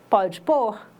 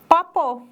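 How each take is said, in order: First: Every syllable of the phrase is said clearly. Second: The phrase is squeezed into two quick syllables.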